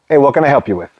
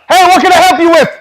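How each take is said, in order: First: The voice is lowered and calm. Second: The voice is loud and yelling. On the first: The situation is being calmed down. The speaker calls it right. "Bring your tone back down" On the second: The situation is kept tense and escalating. The speaker calls it wrong. "now I'm still yelling at him"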